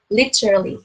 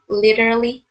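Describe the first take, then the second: First: It is said in a British accent. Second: It is said in an American accent. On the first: "British accent literally" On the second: "bạn nào đọc theo American accent thì mọi người đọc literally"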